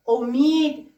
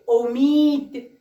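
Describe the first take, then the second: First: Said in the usual way. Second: امید drawn out slowly with a falling end; slowly modelling امید for young pupils; slow sounding out. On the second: Shown as a demonstration. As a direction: stretch امید so the opening او is heard. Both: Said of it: "بعدی رو ببینید".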